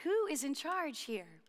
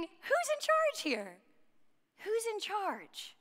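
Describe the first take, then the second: First: Slow, softer, earnest asking; hushed, heartfelt question in the usual pitch; genuine question. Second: High, drawn-out plea for order; slow, high-pitched acted bewilderment; exasperated questioning. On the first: Acted. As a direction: ask it sincerely, quietly and slowly. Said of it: "very genuine question". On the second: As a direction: call it out high and slow, like someone facing mayhem. Imagined reaction to classroom mayhem.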